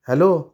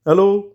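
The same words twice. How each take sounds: First: Said in the usual way. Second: Curt, higher, louder hello; husband answering the phone mid-quarrel, stiffly. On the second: Acted. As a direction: answer tersely, still angry. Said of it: "त्याच्या आवाजात ताठरता होती".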